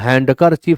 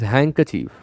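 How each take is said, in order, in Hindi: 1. शब्द में d की ध्वनि बोली जाती है। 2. शब्द में d की ध्वनि साइलेंट रहती है। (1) "हैंडकर चीफ ना पढ़ें" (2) "डी इज साइलेंट देयर"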